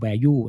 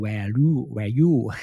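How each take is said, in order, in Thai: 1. พูดด้วยสำเนียงอังกฤษ 2. พูดด้วยสำเนียงไทย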